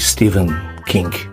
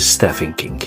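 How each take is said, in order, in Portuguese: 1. O nome é dito com pronúncia inglesa. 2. O nome é dito com pronúncia do português brasileiro. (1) "a pronúncia correta é" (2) "nós brasileiros o chamamos de"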